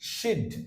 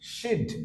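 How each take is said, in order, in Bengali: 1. এটি এক সিলেবলে সংকুচিত করে বলা হয়। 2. এটি এক সিলেবলে সংকুচিত করে বলা হয়।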